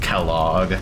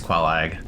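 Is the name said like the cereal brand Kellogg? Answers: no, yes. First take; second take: yes; no. First: It sounds like the cereal name Kellogg. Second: It does not sound like the cereal name. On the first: The speaker calls it wrong. "who I used to think was pronounced Kellogg, and I was thinking of Kellogg cereal" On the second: The speaker calls it right. "I think it's Quelag"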